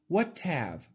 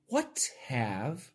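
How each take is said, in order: First: The h at the start of 'have' is dropped. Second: The h at the start of 'have' is pronounced. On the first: "if we cancel the H" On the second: "Perfect pronunciation"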